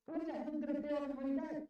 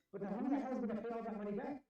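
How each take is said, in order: First: Furious rhetorical yell; outraged repeat. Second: Exasperated. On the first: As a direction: demand it again, near shouting. Repeats the question even harder. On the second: Angry rant about paying debt. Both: Real, not acted.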